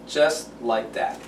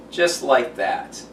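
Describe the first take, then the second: No difference in how they are said.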